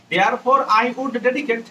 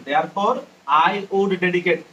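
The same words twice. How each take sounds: First: Very slow, each word drawn out; slow dictation. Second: Said in the usual way. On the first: Shown as a demonstration. Teacher dictating the meaning slowly to students.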